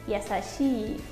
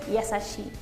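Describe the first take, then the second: First: The final vowel is long. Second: The final vowel is short. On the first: The speaker calls it right. "es yasashi" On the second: The speaker calls it wrong. "no es yasashi"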